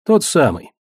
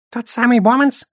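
First: Said in the usual way. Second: High-pitched squeak, rising into a question; squeaky goblin. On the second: A narrator's reading. Goblin asking about the famous Bomanz, squeaking. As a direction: squeak it out like a startled little goblin. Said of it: "пискнул гоблин".

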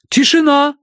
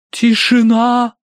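First: High, loud proclamation; громкое провозглашение. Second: High, loud, long-drawn sepulchral pronouncement; могильный голос. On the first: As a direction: call the room to order as a medium. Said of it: "провозгласила мадам Аритоцкая". (громко и высоко провозглашая) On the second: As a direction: intone it slowly like a medium from the grave. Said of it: "за могильным голосом изрекла". (могильным голосом, высоко и протяжно) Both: A narrator's reading.

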